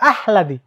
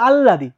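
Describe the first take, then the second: First: The h sound comes before the l. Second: A long l is heard with no h. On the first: "অনেকে বলে আহলাদি, ... এটা কিন্তু ভুল" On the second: "অনেকে বলে আল্লাদি, এটা কিন্তু ভুল"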